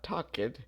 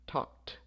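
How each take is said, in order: First: The ending is not pronounced as a T. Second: The ending is pronounced as a T. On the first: The speaker calls it wrong. "Not talked" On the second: The speaker calls it right. "the final sound here is a K, so it would be talked"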